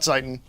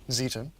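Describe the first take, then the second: First: The first vowel sounds like 'eye'. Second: The first vowel sounds like 'ee'. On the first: The speaker calls it wrong. "Not Zeiten" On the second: The speaker calls it right. "if the E follows the I, it's E"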